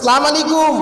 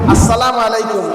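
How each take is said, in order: First: The greeting starts without the opening 'as' syllable. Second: The greeting starts with the full 'as' syllable. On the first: It wishes God's curse on the listener. The speaker calls it wrong. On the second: It wishes peace on the listener. The speaker calls it right.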